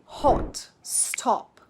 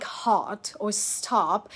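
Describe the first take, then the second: First: HOT and STOP with rounded British O; short rounded O. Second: HOT and STOP with long open "ah"; flattened American O. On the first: Teacher modelling for repetition, short rounded O. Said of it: "It's pronounced after me". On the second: Teacher showing learners what to avoid, flattened O. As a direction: say HOT like "haht", STOP like "stahp". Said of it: "Okay, not like". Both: Shown as a demonstration.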